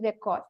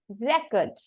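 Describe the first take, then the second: First: The stress is on the second syllable. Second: The stress is on the first syllable. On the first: It is the action of recording. "to pronounce like this" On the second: It is a written entry in a file. "you have to give the stress on the first syllable"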